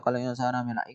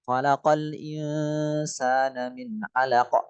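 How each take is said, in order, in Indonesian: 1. Kata-katanya dibaca cepat dan menyambung. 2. Kata-katanya dibaca pelan, huruf demi huruf. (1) "Enggak tartil"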